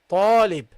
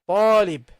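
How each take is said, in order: Both takes have the same delivery.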